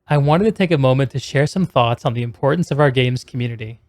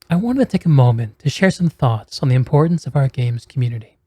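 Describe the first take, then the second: First: It is said in a plain voice. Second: It is said in a relaxed, bedroomy voice.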